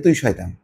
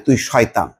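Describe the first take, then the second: First: It is said fondly and teasingly. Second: It is said harshly and sternly.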